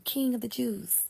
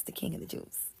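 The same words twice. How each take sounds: First: Said in the usual way. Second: King whispered under the breath; whispered in awe; hushed. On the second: Shown as a demonstration. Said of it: "which he is".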